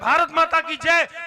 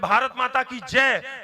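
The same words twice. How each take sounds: First: It is said loudest of all. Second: It is said louder.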